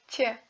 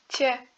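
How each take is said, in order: No difference in how they are said.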